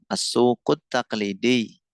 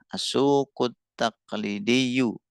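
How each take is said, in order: First: The word ends on a stressed -di, no -yu. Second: The word ends with an audible -diyu ending. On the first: "Pengucapannya ditekan ya teman-teman, karena ada ya nisbatnya di belakang" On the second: "Kalau mau dimunculin ya bisa"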